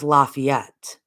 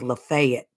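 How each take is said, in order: First: It uses the Northern regional pronunciation. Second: It uses the Southern regional pronunciation. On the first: "In the North, it's Lafayette" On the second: "It's Lafayette in the South"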